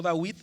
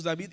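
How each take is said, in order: First: "Dawid" with a w glide; wrong pronunciation. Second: "David" with a v-like b, not w; right pronunciation. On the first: Teacher shows wrong form: "Dawid" with w. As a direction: say "Dawid" rounding into w. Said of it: "y no Dawid". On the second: Teacher contrasts right form: "David" with v. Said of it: "decimos David y no Dawid". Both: Shown as a demonstration.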